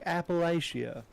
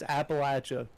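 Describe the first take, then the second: First: It is pronounced the way outsiders say it. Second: It is pronounced the way locals say it. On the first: This is how people from elsewhere say it. The speaker calls it wrong. "people that don't live in Appalachia call it Appalachia... they're like Appalachia" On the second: This is how people who live there say it. The speaker calls it right. "The right. It's Appalachia"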